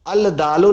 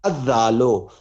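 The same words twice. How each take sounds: First: अल दालो with the lam sounded separately, as the wrong form; counter-example: अल दालो, l not assimilated; wrong al-dalo. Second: अद्दालो with the lam dropped and a doubled d; correct ad-dalo. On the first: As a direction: say अल दालो with a clear al, the rejected way. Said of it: "अल दालो नहीं हम पढ़ रहे हैं". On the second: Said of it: "हम कह रहे हैं अद्दालो". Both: Shown as a demonstration.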